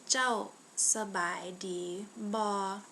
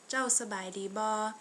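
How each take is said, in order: First: The phrase is said slowly and carefully. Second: The phrase is said at a normal speed.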